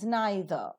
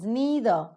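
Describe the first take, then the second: First: It is said in a British accent. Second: It is said in an American accent. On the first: "the British pronunciation is" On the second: "But the American pronunciation is"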